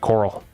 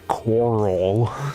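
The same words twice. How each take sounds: First: The word is said quickly with a blurred R. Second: The word is said slowly with a clear R. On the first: "when you say it fast" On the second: "You have to really pronounce the R"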